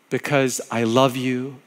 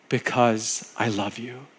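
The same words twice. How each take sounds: First: Slow, gentle because I love you; slow tender repeat. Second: Because I love you, softer and slow, fading out; softer fading repeat. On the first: Pastor repeating God's words to listeners, slow and tender. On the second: Pastor closing God's words to listeners, fading softly. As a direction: let because I love you fade away. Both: Acted.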